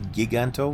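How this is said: The name is said with Spanish-style vowels.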